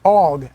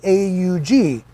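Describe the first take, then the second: First: It is pronounced as a single word. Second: It is spelled out as three separate letters. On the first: The speaker calls it wrong. "as everyone in the world calls it" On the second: The speaker calls it right. "the proper pronunciation"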